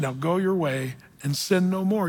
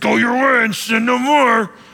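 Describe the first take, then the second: First: It is said in a warm, affirming tone. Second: It is said in a harsh, condemning tone.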